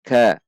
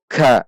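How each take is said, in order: First: "ka" with a light puff of air; moderate aspiration. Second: "Ka" with an excessive puff of air; over-aspirated ka. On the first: Teacher showing the correct sound, "ka" lightly aspirated. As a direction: release the k of "ka" gently, not overdone. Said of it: "Tidak terlalu, namun". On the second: Teacher showing the mistake, "Ka" blasted with air. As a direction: push too much breath into the k of "Ka". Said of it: "namun tidak dengan terlalu". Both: Shown as a demonstration.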